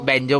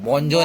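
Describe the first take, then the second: First: The first vowel is an open 'a' sound. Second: The first vowel is a rounded 'o' sound. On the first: The speaker calls it right. "बँजो बँजो बोलतात त्याला" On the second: The speaker calls it wrong. "बॉन्जो नाही ग"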